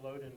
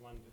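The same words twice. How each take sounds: First: "Loden" said as spelled, with a long O; spelling pronunciation. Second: "London" said LUN-dun, with a short U sound; short vowel in "London", no long O; actual pronunciation. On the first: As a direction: say "Loden" just as it is written, LOH-den. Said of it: "Spelled Loden". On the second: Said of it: "but it's pronounced London". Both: Shown as a demonstration.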